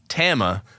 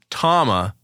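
First: The first vowel is the 'a' of 'ass'. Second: The first vowel is an open 'ah' sound. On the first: The speaker calls it wrong. "not Tama, you freaking plebeians" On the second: The speaker calls it right. "it is Tama"

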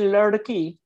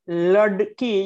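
First: The middle d is a quick flap. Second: The middle d is a full stop. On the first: The speaker calls it right. "You're flapping it" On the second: The speaker calls it wrong. "you don't say ladki"

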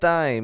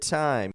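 First: The t is said in a non-American way. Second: The t is said the American way. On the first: The speaker calls it wrong. "You don't want to get time" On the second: The speaker calls it right. "You want to get time"

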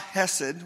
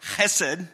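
First: It starts with a soft plain h sound. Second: It starts with a harsh throaty scraping sound. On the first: "without the ch" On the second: "act like there's a piece of popcorn in the back of your throat"

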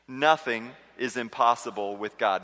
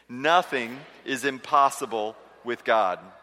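First: It is said plainly, without strong conviction. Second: It is said forcefully, with strong conviction.

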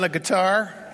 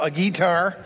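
First: It is said in a standard pronunciation. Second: It is said in a bluegrass pronunciation.

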